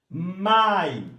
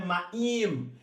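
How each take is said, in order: First: The stress is on the first syllable. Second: The stress is on the second syllable. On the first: The speaker calls it right. "é mai" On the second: The speaker calls it wrong. "Não é no im, não é maim"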